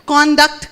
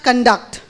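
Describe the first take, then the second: First: "Conduct" as CON-duct, the noun; first-syllable stress. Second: "conduct" as kun-DUCT, the verb; kun-DUCT, weight on the last syllable of "conduct"; second-syllable stress. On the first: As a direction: say "Conduct" with a full round O up front. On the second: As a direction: say "conduct" with a weak first vowel. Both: Shown as a demonstration. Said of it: "What is conduct".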